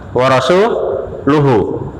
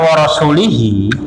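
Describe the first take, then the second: First: The ending vowels are u sounds. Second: The ending vowels are i sounds. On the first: A new sentence: the Messenger also disowns them. "Kalau dibaca dong, dhamma" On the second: The Messenger is joined to those being disowned. "ini kan kasrahnya majrur nih"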